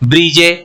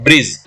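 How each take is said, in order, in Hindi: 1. आखिरी e का उच्चारण स्वर के रूप में किया जाता है। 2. आखिरी e का उच्चारण नहीं किया जाता। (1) "अगर ये हम ई का प्रोनाउंसिएशन करेंगे ... गलत प्रोनाउंसिएशन हो जाएगा" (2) "यहाँ पे ई का प्रोनाउंसिएशन नहीं कर रहे हैं।"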